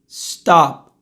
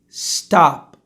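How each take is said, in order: First: The word ends cleanly on the p. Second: The same.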